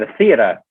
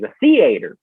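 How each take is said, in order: First: "theater" as THEE-uh-tuh in a mid-Atlantic accent. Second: "theater" as THEE-ay-ter, hard r at the end; Southern "theater". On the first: Struggling to imitate the other way, mid-Atlantic accent on "theater". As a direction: drop the final r of "theater", mid-Atlantic style. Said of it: "that mid-Atlantic accent". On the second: Showing how he says it himself, "theater" said THEE-ay-ter. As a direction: give "theater" a long middle AY. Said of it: "That's what I say". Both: Shown as a demonstration.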